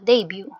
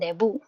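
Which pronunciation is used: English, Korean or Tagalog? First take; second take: English; Tagalog. First: It is said the English way, ending in byoo. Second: It is said the Tagalog way, ending in bu. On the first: "yung English term nila, yung pronunciation nila" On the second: "yung Tagalog pronunciation natin"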